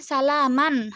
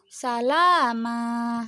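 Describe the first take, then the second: First: The word ends with an n sound. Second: The word ends with a long vowel. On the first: The word is read without stopping on it. "di sini kan salaman harusnya" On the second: The reading stops at the end of the verse. "jadi dibaca qalu salama"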